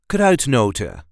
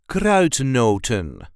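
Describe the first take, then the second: First: The final n sound is left off. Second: The final n sound is clearly pronounced. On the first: "Or without the N" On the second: "I pronounce the N at the end"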